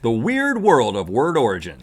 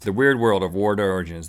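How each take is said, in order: First: It is said at a normal pace. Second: It is said quickly.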